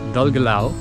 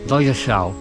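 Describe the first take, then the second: First: The double L is a plain L sound. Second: The double L is a breathy hissing sound. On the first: It is read the way the spelling suggests. The speaker calls it wrong. "qu'on a envie de lire" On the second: It is said the way locals say it. The speaker calls it right. "ça se prononce Dalgelao"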